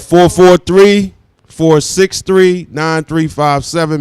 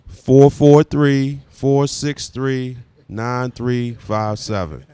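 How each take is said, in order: First: The number is said at a quick pace. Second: The number is said at a slow pace.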